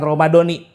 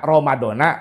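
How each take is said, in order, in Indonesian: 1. Kata ini diakhiri dengan vokal 'i'. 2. Kata ini diakhiri dengan vokal 'a'.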